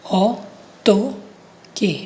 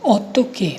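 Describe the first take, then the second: First: ऑटोके very slowly, as ऑ, टो, के; syllable by syllable. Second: Said in the usual way. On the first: Shown as a demonstration. Teacher showing learners how to say it, slow syllable-by-syllable ऑटोके. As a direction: break ऑटोके into three drawn-out syllables with pauses. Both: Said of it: "इसको बोलूँगा मैं".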